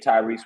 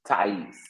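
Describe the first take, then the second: First: The name is said with an added R sound. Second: The name is said without any R sound. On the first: The speaker calls it wrong. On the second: The speaker calls it right.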